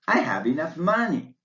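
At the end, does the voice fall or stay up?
falls. The voice rises then falls on money. The statement is complete. "your voice rises and falls on the last stressed word, money"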